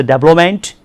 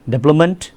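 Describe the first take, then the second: First: "development" said roughly as DAB-lo-ment; variant pronunciation. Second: Said in the usual way. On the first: Shown as a demonstration. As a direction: say "development" with a full "o" in the middle. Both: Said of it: "Some people say development".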